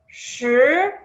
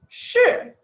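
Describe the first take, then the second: First: It is said in the second tone. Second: It is said in the fourth tone. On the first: It means truth. "o segundo significa verdade" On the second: It means event. "o quarto significa acontecimento"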